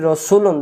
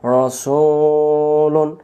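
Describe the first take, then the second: First: রসুলুন said quickly with a short "su"; short, unstretched রসুলুন; hurried short vowel. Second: রসুলুন with the "su" held very long on a level note; chant-like long "suuu" in রসুলুন; drawn-out long vowel. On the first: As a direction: rush through রসুলুন without holding any vowel. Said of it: "রসুলুন তাড়াতাড়ি পড়ি". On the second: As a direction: stretch the middle of রসুলুন slowly. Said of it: "সিনের পেশ টানলে". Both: Shown as a demonstration.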